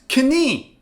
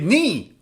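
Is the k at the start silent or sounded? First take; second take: sounded; silent. First: The k at the start is sounded. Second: The k at the start is silent. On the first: The speaker calls it wrong. "This is knie" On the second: The speaker calls it right. "but you should read it knee"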